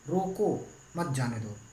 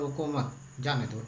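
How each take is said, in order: First: The pause comes after the word रोको. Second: The pause comes after the word मत.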